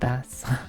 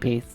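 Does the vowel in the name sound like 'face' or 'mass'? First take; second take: mass; face. First: The vowel sounds like the one in 'mass'. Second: The vowel sounds like the one in 'face'. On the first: It names the fish. The speaker calls it wrong. "not the fish" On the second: It names the musical instrument. The speaker calls it right. "Like the instrument"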